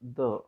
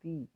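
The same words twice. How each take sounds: First: It is said the way used before consonants. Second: It is said the way used before vowels. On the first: The next word begins with a consonant sound. "If the noun begins with a consonant sound, it is the" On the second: The next word begins with a vowel sound. "If the noun begins with a vowel sound, then we need to use the"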